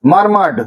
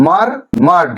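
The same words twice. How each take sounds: First: Said in the usual way. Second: মারমার্ড split into মার, মার্ড; syllable by syllable. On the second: Shown as a demonstration. Teacher showing two syllables, মারমার্ড broken in two. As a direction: clear pause in the middle of মারমার্ড. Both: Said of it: "দুটো সিলেবেলে ভাঙা হয়েছে".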